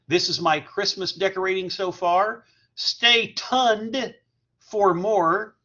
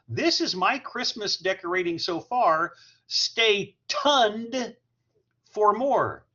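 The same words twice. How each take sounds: First: It is read plainly, without much expression. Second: It is read expressively, with exaggerated feeling.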